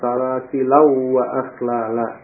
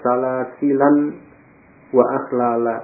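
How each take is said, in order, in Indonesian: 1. Bunyi n menyatu dengan w yang mengikutinya. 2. Bunyi n dibaca jelas sebelum wa. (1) "Tanwin ketemu wawu kan di idghamkan" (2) "dibaca salasilan wa akhlala"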